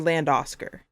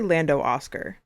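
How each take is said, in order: First: The final O of Lando is dropped before Oscar. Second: Both names are said in full, O sounded twice. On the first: The speaker calls it wrong. "or Land or Land Oscar" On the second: The speaker calls it right. "I say Lando Oscar"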